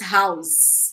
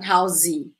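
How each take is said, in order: First: The word ends on the final consonant sound. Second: An extra vowel is added after the final consonant. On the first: The speaker calls it right. "it's house" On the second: The speaker calls it wrong. "not housey"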